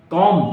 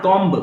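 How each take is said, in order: First: कॉम ending on M, no B; silent B. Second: कॉम्ब with a B released at the end; B wrongly sounded. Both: Shown as a demonstration. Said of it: "not कॉम्ब".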